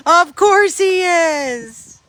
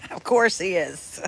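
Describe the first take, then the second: First: Much higher, louder and slow, drawn out; exaggerated knowing. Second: Chuckling through the words; amused, laughing as she says it. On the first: To viewers about Tank at the groomers, hammed-up knowing. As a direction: stretch it like a knowing, exaggerated punchline. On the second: To viewers about Tank at the groomers, laughing. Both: Real, not acted.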